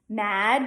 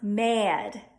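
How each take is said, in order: First: The vowel is a plain flat 'a'. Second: The vowel is 'eh' followed by a schwa.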